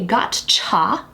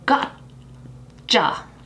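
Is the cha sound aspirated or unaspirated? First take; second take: aspirated; unaspirated. First: The cha has a strong puff of air. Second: The cha has no strong puff of air. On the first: The speaker calls it wrong. "do you aspirate that cha? We don't say gotcha" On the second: The speaker calls it right. "So gotcha"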